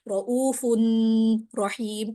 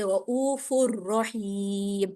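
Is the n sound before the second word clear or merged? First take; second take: clear; merged. First: A clear n sound ends the first word. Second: The n merges into the following r sound. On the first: The speaker calls it wrong. "इस तरह से नहीं होगा" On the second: The speaker calls it right. "बल्कि रऊफुर रहीम"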